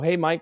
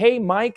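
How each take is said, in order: First: It is said in a low, relaxed pitch. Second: It is said in a high, salesy pitch. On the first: The caller sounds like a friend. The speaker calls it right. "my normal downtone, low" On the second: The caller is a salesperson, not a friend. The speaker calls it wrong. "a high pitch, salesy voice"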